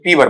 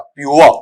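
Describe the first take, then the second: First: The word is said as two syllables, 'pee-var'. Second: The word is said as one syllable, 'pyor'. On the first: The speaker calls it wrong. "पीवर बोलते हैं ना ... ऐसा बोलते हैं तो वो गलत है" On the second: The speaker calls it right. "इसका उच्चारण ऐसा पढ़ा जाएगा प्योर"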